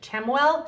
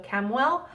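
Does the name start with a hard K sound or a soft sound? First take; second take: soft; hard K. First: The name starts without a hard K sound. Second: The name starts with a hard K sound. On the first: "some people pronounce it Ch- Chamuel" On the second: "I've always pronounced it as like a K"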